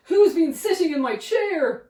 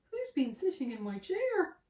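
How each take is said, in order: First: Loud big bear demand. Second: Softer medium bear voice. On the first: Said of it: "said the big bear". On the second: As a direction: ask it as the middle bear. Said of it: "said the medium bear". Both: A narrator's reading.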